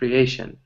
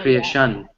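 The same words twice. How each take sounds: First: The stress is on the second syllable. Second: The stress is not on the second syllable. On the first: The speaker calls it right. "So that A is a little bit more stress" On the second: The speaker calls it wrong. "or creation"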